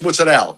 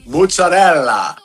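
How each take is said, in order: First: It is said in an Italian-American mob style. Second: It is said in a standard Italian pronunciation. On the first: "I think I'm in the fucking Sopranos" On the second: "have them pronounce it properly"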